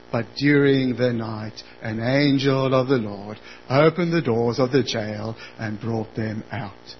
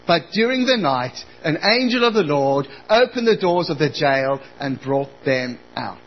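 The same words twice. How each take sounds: First: It is read in a flat monotone. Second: It is read with normal lively intonation.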